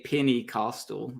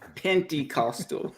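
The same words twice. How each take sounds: First: The first part sounds like 'penny', without a t. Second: The first part sounds like 'penty', with a t. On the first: The speaker calls it wrong. "Sometimes I slip up and say Pentecostal, and I'm like, it's not a penny" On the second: The speaker calls it right. "it's penty"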